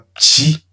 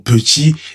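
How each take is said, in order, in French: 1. La première voyelle tombe, ce qui la raccourcit. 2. Les deux syllabes sont bien articulées. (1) "et pas petit" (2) "bien prononcer le mot petit"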